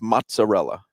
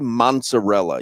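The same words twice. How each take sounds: First: No extra N sound is inserted in the word. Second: An extra N sound is inserted in the word. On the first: The speaker calls it right. "No, it's just mozzarella" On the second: The speaker calls it wrong. "You put an N in there"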